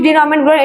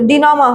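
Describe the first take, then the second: First: The word ends with a 'ment' sound. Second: The word ends with a 'ma' sound. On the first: The speaker calls it wrong. "উচ্চারণটা ডিনমেন্ট ডিনমেন্ট" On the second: The speaker calls it right. "এটা হচ্ছে ডিনমা হবে"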